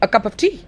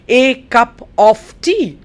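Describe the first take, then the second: First: 'A' and 'of' are reduced to weak forms. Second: 'A' and 'of' keep their full, clear vowels. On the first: "when you say it" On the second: "the way you write it in English"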